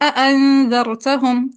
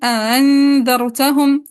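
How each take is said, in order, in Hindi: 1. दोनों हमज़े पूरे बोले जाते हैं, कोई अलिफ़ नहीं डाला जाता। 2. दूसरा हमज़ा नरम किया जाता है, कोई अलिफ़ नहीं डाला जाता। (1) "तहक़ीक़ बिला इदखाल" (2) "तहसील बिला इदखाल"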